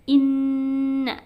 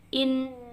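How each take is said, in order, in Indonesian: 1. Diucapkan dengan dengung sengau yang jelas. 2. Diucapkan dengan hidung tertutup, tanpa dengung. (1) "Kalau tidak ditutup" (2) "kalau ditutup in susah"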